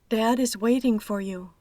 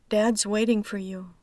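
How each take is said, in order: First: The verb is said as a full word. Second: The verb is reduced to an s sound.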